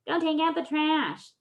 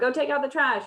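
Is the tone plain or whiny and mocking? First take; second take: whiny, mocking; plain. First: It is said in a whiny, biting, mocking tone. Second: It is said in a plain, ordinary tone.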